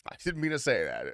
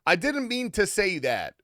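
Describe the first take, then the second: First: Said in the usual way. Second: Higher and louder, hammed-up denial; exaggerated outburst. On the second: Streamer to chat, a hammed-up loud denial. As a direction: blurt it out in mock alarm.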